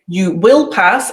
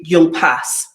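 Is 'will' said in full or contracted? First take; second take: full; contracted. First: Will is said in full as a separate word. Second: Will is contracted onto you as you'll. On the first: The speaker calls it wrong. "I wouldn't say" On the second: The speaker calls it right. "I'd say"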